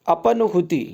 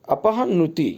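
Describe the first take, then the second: First: अपनुति with no h sound; wrong form अपनुति. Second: अपहनुति with an audible h; correct form अपहनुति. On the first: Teacher posing the misspelling, अपनुति without the h. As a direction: run pa straight into nu in अपनुति. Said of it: "इसे कैसे लिखेंगे". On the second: Teacher giving the correction, अपहनुति with clear h. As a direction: sound out the ha before nu in अपहनुति. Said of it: "इस तरह लिखेंगे शुद्ध". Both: Shown as a demonstration.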